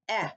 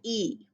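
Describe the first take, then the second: First: The vowel is said as its short sound. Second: The vowel is said as its letter name. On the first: The speaker calls it right. "eh, not e" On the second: The speaker calls it wrong. "not e"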